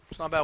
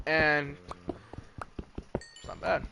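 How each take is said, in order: First: Said in the usual way. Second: Slow, savoring "And it's not bad"; drawn out. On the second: Real, not acted. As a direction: stretch every word out very slowly, lingering on "bad". Musing on a cheap contract.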